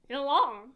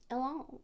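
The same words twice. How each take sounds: First: "Yelan" said louder with a mock French accent. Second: Said in the usual way. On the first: Shown as a demonstration. Streamer sounding out Yelan to prove it sounds French, mock French accent. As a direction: give "Yelan" a put-on French flavour. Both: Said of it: "It sounds".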